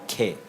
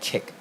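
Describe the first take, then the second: First: The word ends in a vowel sound. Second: The word ends in a k sound. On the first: The speaker calls it right. "That's a traditional old Kelantanese name they call K" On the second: The speaker calls it wrong. "not Kek"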